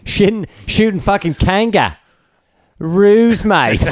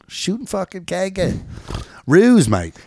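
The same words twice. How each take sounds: First: Much higher, slow Aussie voice for "Ruse, mate"; mimicking the Australian accent. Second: High, slow Aussie drawl with "kanga" and "mate"; Australian accent. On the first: Co-host echoing the Australian bit back at him. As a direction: parrot his Australian accent even higher. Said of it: "Nice pause". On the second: Pretend. Host doing a mock Australian for his co-hosts. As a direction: lay on a thick Australian accent. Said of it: "That's my Bondi, uh, accent".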